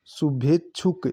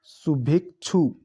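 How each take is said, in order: First: शुभेच्छुक said slowly with the extra final क; wrong form read out. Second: शुभेच्छु said slowly, ending on "chhu" with no final क; correct form demo. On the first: Teacher slowly reading the misspelled शुभेच्छुक. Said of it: "ये अशुद्ध है". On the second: Teacher slowly giving the correct शुभेच्छु. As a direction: sound out शुभेच्छु slowly, stopping at छु. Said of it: "ये शुभेच्छु होता है". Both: Shown as a demonstration.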